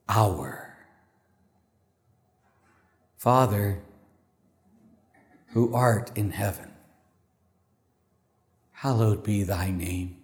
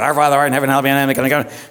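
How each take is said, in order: First: The prayer is said slowly and calmly. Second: The prayer is rushed out very fast.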